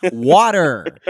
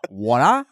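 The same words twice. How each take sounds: First: "Water" loud with a hard final R; American R in water. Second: "water" with no R, ending in an open "ah"; R-less water. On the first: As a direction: hit the R at the end of "Water". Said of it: "You hear how we pronounce those R's". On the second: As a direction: drop the R in "water", British-style. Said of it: "Not water". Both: Shown as a demonstration.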